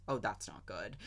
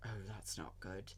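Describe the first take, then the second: First: Mock-dry understatement with a laugh in it; dry, laughing through it. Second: Lower, much softer, bone-dry understatement; driest tone. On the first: Quoting Obi-Wan on the roof, dry line with a laugh. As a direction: try to say it deadpan but crack up. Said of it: "Like, just in the driest accent". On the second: Retold or imitated. Obi-Wan about to fall off the roof, bone-dry. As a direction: toss it off as if nothing is wrong. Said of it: "but, like, the driest tone".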